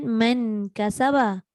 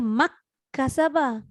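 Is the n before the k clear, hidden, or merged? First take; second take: clear; merged. First: The n is pronounced fully and clearly before k. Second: The n merges completely into the following k. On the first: "Tidak, sebab dia bukan izhar" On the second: "Tidak juga, sebab dia bukan idgham"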